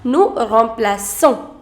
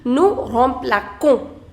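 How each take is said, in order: First: The c in the verb sounds like s. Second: The c in the verb sounds like k. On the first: The speaker calls it right. "you pronounce it as nous remplaçons" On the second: The speaker calls it wrong. "If I do not put this accent, the pronunciation would be nous remplaçons, which is incorrect"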